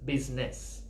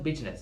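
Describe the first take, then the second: First: The middle consonant is a clear z sound. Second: The middle consonant is a j-like sound. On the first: The speaker calls it right. "it's business" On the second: The speaker calls it wrong. "it's not business"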